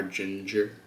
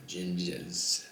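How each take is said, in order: First: GINGER ending in a hard R. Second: GINGERS with the final R dropped. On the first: Warning others off the slur-like hard-R ginger, hard R. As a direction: pronounce the final R fully in "ginger". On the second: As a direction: say "Gingers" as "ginjuz", no R. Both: Shown as a demonstration. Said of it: "with the hard R".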